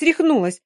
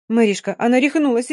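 First: Desperate shriek. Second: Panicked cry, louder, calling for help; desperate shout. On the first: Dina repeating to Mary that Yulka has gone mad, higher desperate shriek. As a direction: shriek рехнулась as the panic peaks. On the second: Dina calling to Mary for help, desperate shout. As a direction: cry out to a friend in alarm. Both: Acted. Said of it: "отчаянно закричала Дина".

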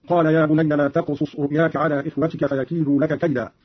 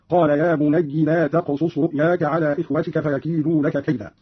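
First: Said in the usual way. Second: بني said "bunayyi", ending in "i"; kasra on the ya. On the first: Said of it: "قوله تعالى". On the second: Shown as a demonstration. Teacher demonstrating Qalun's reading, بني as "bunayyi". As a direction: end بني on "yi" instead of "ya". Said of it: "بكسر الياء هكذا".

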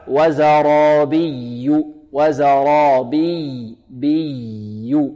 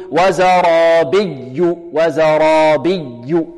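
First: Very slow chant, flowing double y in وزرابي; soft doubled yaa. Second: Slow chant, exaggerated hard press on y of وزرابي; overdone stress. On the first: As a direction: let the stressed ي of وزرابي flow without jamming. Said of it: "هكذا النطق". (ترتيل بطيء بياء مشددة رخوة في وزرابي) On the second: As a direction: jam the tongue to the palate on ي in وزرابي. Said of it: "هناك من يبالغ في". (مبالغة خاطئة في الضغط على ياء وزرابي) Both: Shown as a demonstration.

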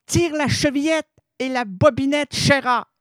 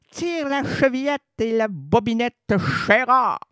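First: Cue the audience to say it together; leading the audience. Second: Grandmother's famous line, lightly voiced; classic fairy-tale line. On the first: Acted. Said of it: "On le dit ensemble". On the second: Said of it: "Ça, c'est classique".

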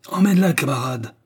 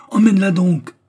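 First: Ordre rugi, plus haut et fort; rugissement. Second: Cri très haut et très fort; rugissement furieux. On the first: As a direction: Bulba aboie l'ordre au camarade. (ordre rugi avec force) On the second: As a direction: hurler l'ordre à pleine voix. (Bulba hurle l'ordre, hors de lui) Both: A narrator's reading. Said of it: "rugit Bulba".

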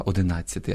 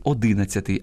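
First: Одинадцятий stressed on -НАД-; correct stress. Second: Одинадцятий stressed on -ДИ-; wrong stress. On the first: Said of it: "а треба одинадцятий". (наголос на третьому складі: одинадцятий) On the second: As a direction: hit ДИ in одинадцятий. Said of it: "неправильне наголошування слів". (наголос на другому складі: одинадцятий) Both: Shown as a demonstration.

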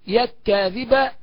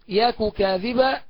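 First: يك كاذبا joined on a doubled k, no u between; slow held k in يك كاذبا; merged kaf. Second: يك كاذبا said yaku kadhiba, two separate k sounds; clear unmerged kaf. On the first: Teacher demonstrates merging, doubled k in يك كاذبا. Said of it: "الإدغام هكذا". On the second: Teacher shows the clear reading, يك كاذبا unmerged. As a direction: slowly voice a u after the first k in يك كاذبا. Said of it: "والإظهار معروف". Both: Shown as a demonstration.

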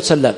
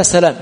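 First: سلام with a long doubled L. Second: سلام with one short L; single light L. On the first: Teacher naming the form not used, L doubled in سلام. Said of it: "والذي ورد ماذا بالتشديد". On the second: Teacher reciting a chain of narrators, single L in سلام. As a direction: say سلام lightly, L not doubled. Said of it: "والذي ورد بالتخفيف هو فلان". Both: Shown as a demonstration.

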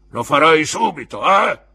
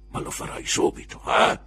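First: Molto più alto e forte; eco gridata. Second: Sussurro forte e duro; bisbiglio minaccioso. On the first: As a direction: urla l'eco del padrone. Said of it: "echeggiò l'uomo con la gamba di legno". (il custode ripete gridando le parole di Creakle) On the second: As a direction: minaccia sottovoce. (Creakle avverte il ragazzo in un bisbiglio) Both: A narrator's reading.

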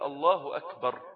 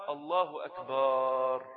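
First: الله أكبر with a short fatha and no stretch; correct takbir. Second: الله أكبر with أكبر drawn out very slowly, almost sung; stretched akbar. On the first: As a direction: say أكبر crisply, no lengthening. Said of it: "فتحة بس من غير مد". (الله أكبر بفتحة بلا مد) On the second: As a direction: stretch the first syllable of أكبر like a chant. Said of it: "أو همزة أكبر". (الله أكبر بمد أكبر ممطوطة) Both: Shown as a demonstration.

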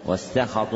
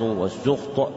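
First: والسخط with an open a after the s, "was-sakhat"; fatha on the sin. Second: والسخط with a u after the s, "was-sukht"; damma on the sin. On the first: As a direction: pronounce والسخط as "sakhat", two a vowels. (والسخط بفتح السين والخاء) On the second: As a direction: pronounce والسخط as one closed "sukht". (والسخط بضم السين وسكون الخاء) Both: Shown as a demonstration. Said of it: "بفتح السين وضمها لغتان صحيحتان".

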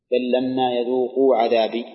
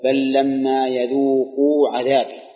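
First: Said in the usual way. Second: Slow, chanted Quranic recitation of يذوقوا. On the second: Acted. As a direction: recite the verse slowly and lean into يذوقوا. (تلاوة مرتلة بطيئة مع التركيز على يذوقوا) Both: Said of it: "مثالها قوله تعالى".

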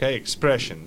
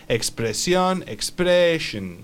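First: Said in the usual way. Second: Expression drawn out slowly, ex-PRE-shun; teacher's slowed-down expression; slow model pronunciation. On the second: Shown as a demonstration. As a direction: stretch the stressed middle of expression for a learner.

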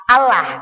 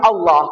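First: "Allah" read as spelled, light flat "lah"; "Allah" the plain Indonesian way, thin "a". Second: "Allah" with a thick, rounded "oloh"; Arabic tajwid reading. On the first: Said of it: "nulis Indonesia A L L A H". ("Allah" dibaca tipis seperti tulisan Indonesia) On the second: ("Allah" dibaca tebal jadi "oloh") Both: Shown as a demonstration.

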